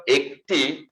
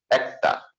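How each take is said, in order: First: একটি begun with a closed "e", "ek-ti"; closed "e" pronunciation. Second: একটা begun with an open "ae", "aek-ta"; open "ae" pronunciation. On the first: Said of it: "আমরা যখন একটি উচ্চারণ করি". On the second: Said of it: "তখন এটা শুদ্ধ উচ্চারণ হচ্ছে". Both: Shown as a demonstration.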